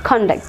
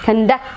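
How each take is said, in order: First: The stress is on the first syllable. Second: The stress is on the second syllable.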